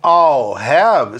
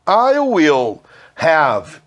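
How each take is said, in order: First: I and will merge into one short 'all' sound. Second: Will is said in full as a separate word.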